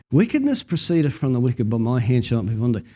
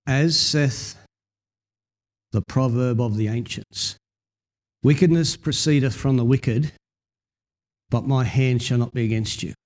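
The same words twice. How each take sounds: First: Solemn archaic scripture recital; King James Bible reading. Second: King James reading. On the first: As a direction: read the old proverb with reverence. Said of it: "in the old King James". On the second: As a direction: read it like the old King James Bible. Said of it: "old King James Version says". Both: Shown as a demonstration.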